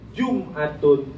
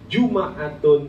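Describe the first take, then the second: First: The m is followed by no vowel. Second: The m is followed by an a vowel.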